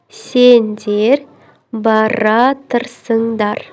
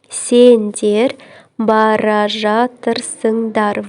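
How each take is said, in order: First: The verb is merged into one shortened word. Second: The verb is said as two full words.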